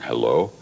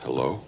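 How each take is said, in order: First: It is said strongly and forcefully. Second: It is said softly and gently.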